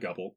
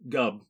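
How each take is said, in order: First: The word ends with an L sound. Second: The word ends without an L sound. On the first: The speaker calls it wrong. "not Gubble" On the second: The speaker calls it right. "no L"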